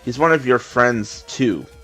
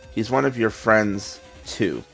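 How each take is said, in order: First: It is said smoothly without a pause. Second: There is a pause before the word too.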